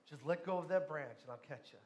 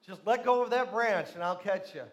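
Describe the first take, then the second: First: Soft, low heavenly voice; calm reassurance. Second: Loud, firm voice of God; insistent command. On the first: God promises to catch the dangling man, calm and quiet. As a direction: repeat it quietly, dropping away at the end. God calmly repeats the instruction. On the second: God insists the man release the branch, loud and firm. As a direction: project it firmly, falling at the end. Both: Retold or imitated.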